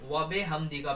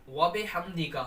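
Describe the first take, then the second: Both takes have the same delivery.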